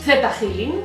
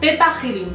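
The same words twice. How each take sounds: First: The h at the start of Healing is pronounced. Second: The h at the start of Healing is silent. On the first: The speaker calls it right. "me gusta decirlo Theta Healing porque va con una H, o sea, como en inglés" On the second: The speaker calls it wrong. "lo pronuncian Theta Healing, pero mmm, a mí me suena mal"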